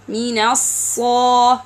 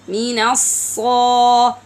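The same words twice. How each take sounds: First: The s sound has a strong whistle. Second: The same.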